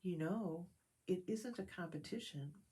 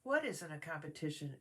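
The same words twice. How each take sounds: First: Soft, gentle reassurance; kindly. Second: A mild puzzled question; Pooh, mildly bewildered; confused. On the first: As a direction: comfort a crying friend quietly. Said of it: "he said kindly". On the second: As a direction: ask as if lost. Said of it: "asked a confused sounding Pooh". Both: Acted.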